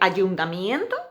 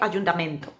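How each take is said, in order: First: The syllable has the diphthong 'ie'. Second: The syllable has a plain 'e' vowel. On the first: The speaker calls it right. "Yo prefiero decir ayuntamiento" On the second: The speaker calls it wrong. "cualquier sonido que distorsione un poco las vocales de ese diptongo"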